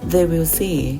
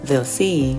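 First: They and will are said as separate words. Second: They and will merge into one short syllable. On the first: "แทนที่เราจะพูดว่า" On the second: "เจ้าของภาษาก็จะพูดว่า"

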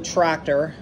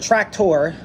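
First: The word is said with an English pronunciation. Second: The word is said with a German pronunciation.

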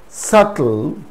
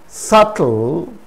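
No difference in how they are said.

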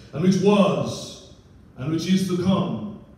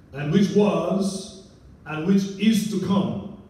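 The two takes are said the same way.

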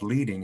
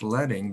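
First: The first vowel sounds like in 'bead'. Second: The first vowel sounds like in 'bed'. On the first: The speaker calls it wrong. "not leading" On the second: The speaker calls it right. "it's leading, because this is lead type"

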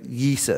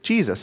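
First: The name starts with a Y sound. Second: The name starts with a J sound. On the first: This is how it sounded in the original Greek. "it would be actually pronounced with an I first" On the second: This is how it is said in English. "when the name gets translated into English, we transliterate it, we pronounce it Jesus"

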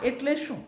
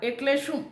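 The two takes are said the same way.

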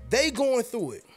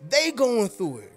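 First: The words are said at normal volume. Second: The words are said at raised volume.

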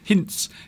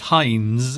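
First: The name ends with a ts sound. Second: The name ends with a z sound. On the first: This is the German way of saying it. "the Germans pronounce it as a T apostrophe S" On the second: This is the English way of saying it. "we pronounce the Z as a Z"

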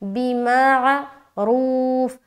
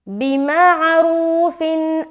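First: The word stops abruptly on the f sound. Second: The word ends with an -in sound. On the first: The reader pauses at this word. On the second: The reading continues into the next word.

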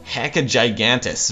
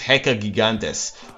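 First: The name is said with an American pronunciation. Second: The name is said with a non-American pronunciation. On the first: "If you're American, America, then you pronounce it" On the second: "but I think it's"

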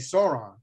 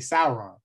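First: The name is said in a plain New York style. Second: The name is said with careful, movie-like pronunciation. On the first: The speaker calls it wrong. "I used to just say Sauron" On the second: The speaker calls it right. "this year where I can say Sauron"

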